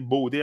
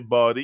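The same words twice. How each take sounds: First: The first vowel sounds like the word 'bow'. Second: The first vowel sounds like in 'god'. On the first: "the body is a bow. That's why I always say body" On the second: "I don't say body"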